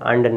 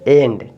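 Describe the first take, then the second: First: The first vowel is a short 'uh' sound. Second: The first vowel is an 'eh' sound. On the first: The speaker calls it wrong. "अंड नहीं सही है" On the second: The speaker calls it right. "ए"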